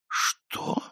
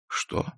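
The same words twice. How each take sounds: First: The word is longer and higher in pitch. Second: The word is short and lowest in pitch. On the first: "каждое следующее «что» было длиннее и тонкоголосее предыдущего" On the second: "И каждое следующее «что» было длиннее и тонкоголосее предыдущего"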